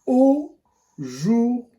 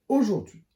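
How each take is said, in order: First: Aujourd'hui drawn out very slowly; slow teaching word. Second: Said in the usual way. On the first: Shown as a demonstration. A teacher showing the class aujourd'hui, very slowly. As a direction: stretch aujourd'hui syllable by syllable. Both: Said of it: "Le premier mot outil".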